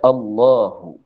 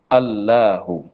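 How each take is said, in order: First: The L sound is heavy and thick. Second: The L sound is light and thin. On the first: "disunatkan tafkhim, tebal kalam, kita baca" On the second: "baca dengan secara asal"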